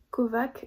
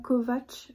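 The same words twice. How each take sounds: First: The name ends with a plain 'k' sound. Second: The name ends with a 'ch' sound. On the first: The speaker calls it wrong. "je vais le dire comme ça même si je pense que c'est pas du tout comme ça" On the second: The speaker calls it right. "je pense que ça se dit comme ça"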